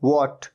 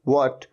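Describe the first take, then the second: No difference in how they are said.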